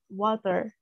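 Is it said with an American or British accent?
American. It is said with an American accent.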